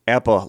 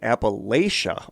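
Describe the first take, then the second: First: It is said the way southern speakers say it. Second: It is said the way northern speakers say it. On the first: "often used by those from southern Appalachia" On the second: "often used by those from northern"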